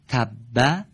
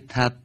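First: The word ends with a short vowel. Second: The word ends on a held doubled consonant. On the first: "حرف آخر اونها دارای یکی از حرکات" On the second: "من تشدیدش رو حذف نکردم"

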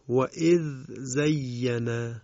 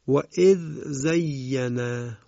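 The two takes are said the same way.

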